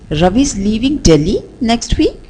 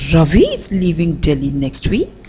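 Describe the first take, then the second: First: The stress falls on the word Delhi. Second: The stress falls on the word Ravi. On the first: "let's shift the stress on the word Delhi" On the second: "Let's again shift the stress to Ravi"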